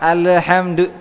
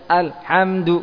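First: The L sound ends with a bouncing release. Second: The L sound is cut off abruptly. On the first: "dikolokolahkan alhamdu itu juga salah" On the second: "jangan dihentikan alirannya dengan dikatakan atau dibaca alhamdu kosong"

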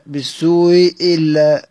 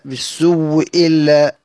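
First: The hamza is softened, between glottal stop and vowel. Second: The hamza becomes a doubled w sound. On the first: "دي في حالة تسهيل" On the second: "في حالة الإبدال واو مشددة"

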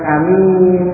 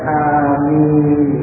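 First: The first vowel is short, the second long. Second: Both vowels are long with a single m. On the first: The speaker calls it wrong. "dengan pendek alifnya dan panjang ninya" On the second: The speaker calls it right. "diringankan ninnya dan dipanjangkan alif maupun ninnya"

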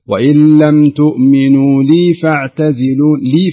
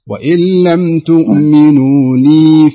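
First: The final vowel of 'li' is cut short. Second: The final vowel of 'li' is held long. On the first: The speaker calls it wrong. "فلا أستعجل فأقول ... لا ما تصلح" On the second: The speaker calls it right. "الياء اختممناها بحيث أنها تأخذ حقها"

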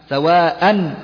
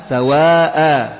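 Both takes have the same delivery.

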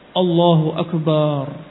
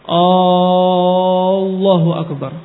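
First: The ba sound in Akbar is lengthened. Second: The opening vowel is lengthened. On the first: "kesalahan-kesalahan ba-nya panjang" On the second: "Atau hamzahnya panjang"

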